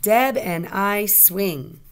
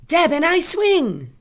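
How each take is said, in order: First: Said in the usual way. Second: High, loud excited cry; exclamation. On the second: Shown as a demonstration. Teacher tests an exclamation mark for pupils, exclaiming. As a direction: shout it out with big feeling. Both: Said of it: "Is it going to be an exclamation mark?".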